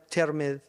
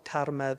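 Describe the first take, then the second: First: The first syllable has a vowel other than 'a'. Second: The first syllable has an 'a' vowel.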